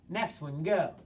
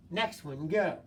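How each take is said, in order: Both takes have the same delivery.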